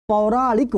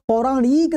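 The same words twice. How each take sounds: First: पौराणिक slowly, with a short final "ik"; slow down on पौराणिक and keep its i short; teacher's careful model of पौराणिक. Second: पौराणिक with a long "ee", "pauraaneek", pitched high; teacher's wrong example, पौराणिक as "pauraaneek"; wrong vowel length. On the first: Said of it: "छोटी ई की मात्रा होती है". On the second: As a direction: stretch the i of पौराणिक as a mistake. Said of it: "नहीं होता है". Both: Shown as a demonstration.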